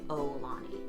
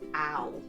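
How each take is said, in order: First: The first syllable sounds like oh. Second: The first syllable sounds like ow. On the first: The speaker calls it wrong. "I tend to say O Lani" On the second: The speaker calls it right. "it's Ow, like O W, Lani"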